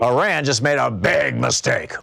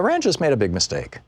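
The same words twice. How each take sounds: First: It is said in a threatening, aggressive tone. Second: It is said in a forgiving, understanding tone. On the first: A retaliation is coming. "is it like, hey, guys, you know, you got too close to my face, I'm going to punch you" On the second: It was just an error. "or is it, oh, I get it, you know, you made a, uh, an error?"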